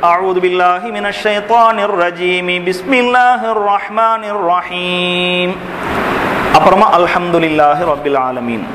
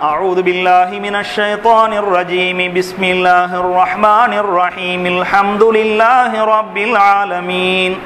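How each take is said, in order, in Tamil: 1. முதல் இரண்டு பகுதிகள் சேர்த்து ஓதப்படும், பிறகு மூச்சு இடைநிறுத்தம். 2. மூன்று பகுதிகளும் மூச்சு விடாமல் ஒன்றாகத் தொடர்ந்து ஓதப்படும். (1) "அஊதுவையும் பிஸ்மியையும் ஒரே மூச்சுல ஓதி நிறுத்திறது" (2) "மூச்சு விடாம"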